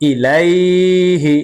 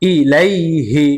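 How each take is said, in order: First: The 'lai' syllable is drawn out long. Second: The 'lai' syllable is said short and quick. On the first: The speaker calls it wrong. "এভাবে টেনে পড়া যাবে না" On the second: The speaker calls it right. "তাড়াতাড়ি উচ্চারণ করে পড়তে হবে"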